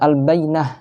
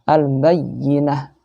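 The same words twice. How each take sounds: First: The y sound is single and light. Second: The y sound is doubled and pressed. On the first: The speaker calls it wrong. "Kalau al-bayyinah berarti tidak ada tekanannya" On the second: The speaker calls it right. "ini harus ada tekanannya ya"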